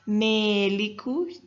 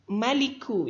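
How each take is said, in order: First: The first vowel is tilted toward 'e'. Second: The first vowel is a plain open 'a'. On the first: "dengan dibaca imalah" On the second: "hanya dibaca rofa saja bukan tanwin"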